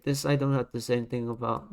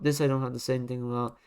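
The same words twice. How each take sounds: First: Said in the usual way. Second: Rattled off fast, dismissive; fast repeat. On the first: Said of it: "repeated line, second faster". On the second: Shown as a demonstration. Rating a bad design, repeating the dismissal fast. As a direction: toss the same line off quickly. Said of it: "repeated line, first slower".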